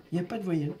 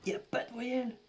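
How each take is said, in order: First: Said in the usual way. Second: Much higher, strained repeat of voyelle; higher pitched real despair; disbelief. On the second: Real, not acted. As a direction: squeak out "voyelle" in dismay.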